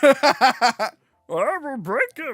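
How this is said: It is said in a Kermit-like voice.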